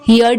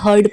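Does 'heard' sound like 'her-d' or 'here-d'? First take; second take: here-d; her-d. First: The vowel sounds like the one in 'here'. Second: The vowel sounds like the one in 'her'. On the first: The speaker calls it wrong. "हियर्ड नहीं" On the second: The speaker calls it right. "बल्कि हर्ड pronounce करेंगे"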